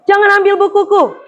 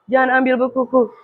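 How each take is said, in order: First: It is read with lively intonation and expression. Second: It is read flatly without intonation or expression. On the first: The speaker calls it right. "Disajikan dan dibacakan menggunakan intonasi dan ekspresi" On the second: The speaker calls it wrong. "Ada nada dengan tidak nada"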